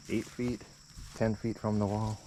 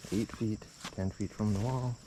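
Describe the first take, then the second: No difference in how they are said.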